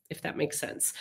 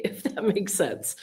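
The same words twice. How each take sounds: First: Breathy whispered aside, nearly silent; hushed, hinting at more than she says; conspiratorial whisper. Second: Said through a light laugh; amused, sheepish tag line. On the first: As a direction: drop to a knowing whisper, letting them in on it. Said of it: "trying to say, but not say". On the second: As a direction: laugh at her own coy hint. Laughs after admitting coded talk. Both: Real, not acted.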